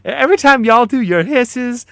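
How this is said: It is read in a put-on Texan accent.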